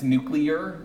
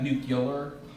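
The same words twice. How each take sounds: First: It is said nu-clear, with 'clear' intact. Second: It is said nu-cu-lar, with an extra u. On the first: The speaker calls it right. "It's nuclear" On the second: The speaker calls it wrong. "not nuclear. So there's no two U's in there"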